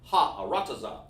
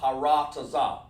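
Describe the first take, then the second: First: The opening ha is heard as a separate part. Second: The opening ha runs straight into the word. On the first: The speaker calls it right. "You want to let people hear that preposition there" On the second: The speaker calls it wrong. "you don't want to say"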